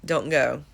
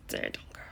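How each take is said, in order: First: Said in the usual way. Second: "Don't go." breathed on no voice; a whispered plea "Don't go.". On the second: Shown as a demonstration. Fan repeating the lyric to herself, whispered.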